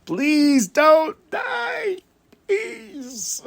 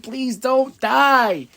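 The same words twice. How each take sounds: First: Very high, very slow strained cry of please don't die; a fan's anguished high wail; desperate plea. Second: Higher, very slow please don't die; pleading. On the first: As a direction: plead harder, almost shouting. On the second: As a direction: beg slowly for his safety. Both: Retold or imitated. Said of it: "moments where I'm like".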